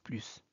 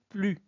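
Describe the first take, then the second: First: The final S sound is clearly heard. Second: The final S sound is silent. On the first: "Ici, on prononce plus" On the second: "on ne prononce pas le S. Donc on dit plus"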